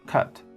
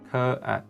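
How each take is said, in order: First: The word is said at normal speed. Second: The word is said slowly and drawn out.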